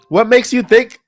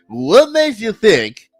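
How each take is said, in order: First: The question is read in a plain, neutral way. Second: The question is read with a sassy, challenging attitude.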